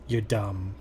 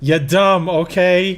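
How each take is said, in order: First: Low, quiet deadpan insult; deadpan mock thought. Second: Louder, insult through laughter; laughing mock insult. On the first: Voicing a supposed private thought to a friend, deadpan. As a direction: toss it off low and under your breath. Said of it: "this is my actual thought". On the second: Repeating the joke insult to a friend, laughing. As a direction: crack up while pretending to insult.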